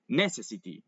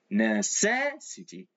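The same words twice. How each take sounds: First: The stress is not on the second syllable. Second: The stress is on the second syllable. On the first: The speaker calls it wrong. "we don't say necessity. No, we don't say that" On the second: The speaker calls it right. "just before the et part we add the accent"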